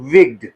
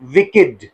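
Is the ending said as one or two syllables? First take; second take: one; two. First: The word is said as one syllable. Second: The word is said as two syllables. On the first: The speaker calls it wrong. "हम इसको mostly विग्ड पढ़ते हैं" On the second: The speaker calls it right. "It is pronounced as विकेड, not विग्ड"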